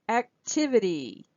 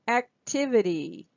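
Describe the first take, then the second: The two takes are said the same way.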